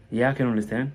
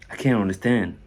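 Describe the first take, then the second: First: "can" short, straight into "understand"; don't linger on "can"; quick, light CAN. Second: "can't" held a beat before "understand"; held CAN'T, silent T. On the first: Teacher contrasting positive with negative, quick light "can". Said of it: "On ne perd pas le temps sur le premier can". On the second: Teacher contrasting negative with positive, held "can't". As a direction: dwell on "can't", leaving off the T. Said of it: "une seconde sur le deuxième". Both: Shown as a demonstration.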